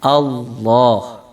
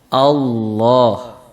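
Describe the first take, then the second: First: The L is said thick and heavy. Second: The same.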